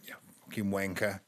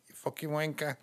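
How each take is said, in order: First: It is said in her own ordinary voice. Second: It is said in a little boy's Liverpool accent.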